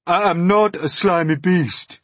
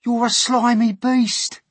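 First: High, loud, stressed denial; indignant earthworm. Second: Slow, very high shouted insult; jeering centipede. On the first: Earthworm rebutting centipede's insult, indignant. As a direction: protest loudly, leaning on "not". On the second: Centipede insulting the earthworm, jeering shout. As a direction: stretch the insult out, loud and high. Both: Acted.

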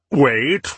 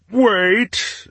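First: Said in the usual way. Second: Wait pitched much higher, rising. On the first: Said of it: "first take of plea". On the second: Acted. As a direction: push the second wait up high. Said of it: "second take, much higher".

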